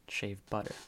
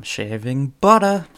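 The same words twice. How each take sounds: First: Said in the usual way. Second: Louder, higher mock Boston accent on "butter". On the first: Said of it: "instead of just saying". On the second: Comedian selling shaving butter, hammed-up Boston accent. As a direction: exaggerate a Boston "butter", dropping the r. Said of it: "in a Boston accent".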